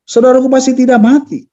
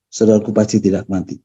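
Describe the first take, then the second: First: It is said in an arguing, reproachful tone. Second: It is said in a pleading, helpless tone. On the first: The speaker is complaining and arguing. "dengan argumentasi" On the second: The speaker is asking for help. "berbeda penekanannya. ... kalimat meminta tolong"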